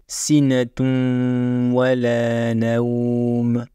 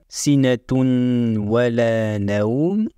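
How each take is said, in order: First: The N sound is merged into the W. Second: The N sound is clearly pronounced before the W. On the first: The speaker calls it right. "mais plutôt" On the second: The speaker calls it wrong. "On ne dira pas"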